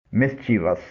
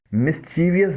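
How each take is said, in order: First: مسچیوس said "MIS-chi-vus"; three syllables in مسچیوس, no extra i; correct mischievous pronunciation. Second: مسچیویس said "mis-CHEE-vi-us"; common mispronunciation. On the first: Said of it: "صحیح pronunciation ہے". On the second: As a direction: add an extra i syllable in مسچیویس. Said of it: "جو غلط ہے". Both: Shown as a demonstration.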